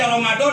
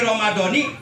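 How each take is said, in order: First: The word ends on the final consonant. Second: The word ends with an added 'i' vowel. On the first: The month is not tied to this year, so it is unclear. The speaker calls it wrong. "berarti itu kalimat Ramadan tidak diidopatkan" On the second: The month is tied to the words that follow, meaning this year's Ramadan. The speaker calls it right. "wajib bil jari dibaca J R. Alamat J R-nya kasroh"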